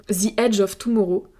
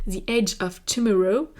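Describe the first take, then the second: First: "The Edge of Tomorrow" with a French accent, "ze adge of toumoro"; English title said the French way. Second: "The Edge of Tomorrow" retried with a more English "the" and "edge"; a second go at the English title; corrected English. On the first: Real, not acted. ("The Edge of Tomorrow" avec l'accent français) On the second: Shown as a demonstration. ("The Edge of Tomorrow" reprononcé plus à l'anglaise) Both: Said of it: "pardon, mon accent français".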